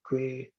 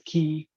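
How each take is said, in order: First: The word is said like 'kway'. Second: The word is said like 'key'. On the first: This is how many people say it in the US. "in the U S, I've noticed many people say quay" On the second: This is how it is said in Australia. "in Australia, it's pronounced as key"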